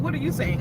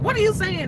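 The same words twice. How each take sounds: First: Mildly puzzled mimicked reply; puzzled coworker. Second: High-pitched baffled retelling; mock bafflement. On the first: Coworker answering the newcomer, mildly puzzled. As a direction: echo it back, less excitedly. Coworkers' echoed question, less high. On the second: Newcomer to coworker with Indian English, baffled. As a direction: act out total incomprehension.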